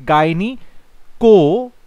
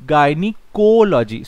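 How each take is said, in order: First: gynaecology drawn out slowly, rising at the end; teacher sounding out a word slowly; slow demo pronunciation. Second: gynaecology said slowly, falling to a close; teacher modelling the word; slow clear pronunciation. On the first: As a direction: stretch out gynaecology syllable by syllable. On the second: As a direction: sound out gynaecology slowly and settle it down. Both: Shown as a demonstration.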